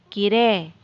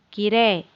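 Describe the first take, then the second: No difference in how they are said.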